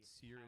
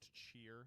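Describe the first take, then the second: First: The name begins with an 's' sound. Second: The name begins with a 'ch' sound. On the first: The speaker calls it wrong. "I'd just been pronouncing it wrong my whole life" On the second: The speaker calls it right. "actually pronounced cheer"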